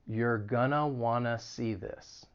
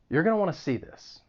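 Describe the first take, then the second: First: It is spoken slowly and deliberately. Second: It is spoken at a normal, quick pace. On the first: "then I'll say it slowly" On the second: "The first time I'll say it at a normal speed"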